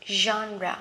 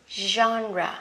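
The two takes are said the same way.

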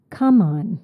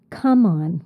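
First: The stress is on the first word. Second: The stress is on the first word.

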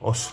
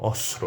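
First: The cluster is simplified to only two consonants. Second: The same.

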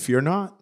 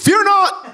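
First: It is said mildly and softly. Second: It is yelled loudly.

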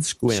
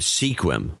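First: The name is said as one short syllable. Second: The name is said with two syllables. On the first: This is how locals say the name. The speaker calls it right. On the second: This is how newcomers say the name. The speaker calls it wrong.

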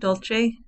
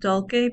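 First: The c is said as a soft ch sound. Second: The c is said as a hard k sound. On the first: The speaker calls it wrong. "Some people pronounce it dulce, using the Italian pronunciation" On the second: The speaker calls it right. "I pronounce it dulce because it's a Latin phrase, and they have a hard C in Latin"

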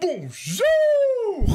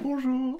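First: It is said with exaggerated, overdone enthusiasm. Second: It is said with calm, moderate friendliness.

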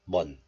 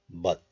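First: The syllable ends in an n sound. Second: The syllable ends in a t sound. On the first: The syllable comes before a nasal sound. "this final consonant 지읒 becomes nasalized into niun" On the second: The syllable is said on its own. "This letter is pronounced as but in isolation"

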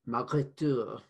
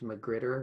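First: The name is said with a French accent. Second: The name is said with an American accent. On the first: "pronounced with a sophisticated French accent. So I suppose it should be Magritteur" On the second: "Being an American, I probably would have called this package McGritter"

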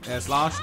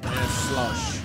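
First: The vowel in slash is a plain open a. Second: The vowel in slash sounds like uh. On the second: "it's almost kind of like he's saying slush"

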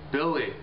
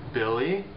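First: The name is said in an angry tone. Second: The name is said in a questioning tone. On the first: The son is probably in trouble. "It's an angry way to say his name" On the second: The speaker is asking whether Billy is there.

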